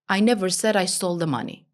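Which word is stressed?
none. No word is stressed; the delivery is flat. Nothing in the message stands out. "Nothing is important"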